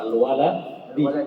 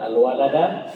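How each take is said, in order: First: The final syllable ends with an 'i' vowel. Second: The final syllable ends with an 'a' vowel. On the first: The speaker calls it right. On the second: The speaker calls it wrong. "fathahnya itu sah. Salah"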